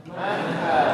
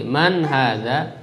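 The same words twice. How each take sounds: First: Said in the usual way. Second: Slow, drawn-out model reading of "Man hadza"; teacher says "Man hadza" slowly, each word clear, for the class to repeat; slow model phrase. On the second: Shown as a demonstration. Teacher models "Man hadza" slowly for students to repeat. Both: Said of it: "Coba diikuti".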